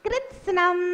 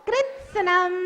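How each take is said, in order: No difference in how they are said.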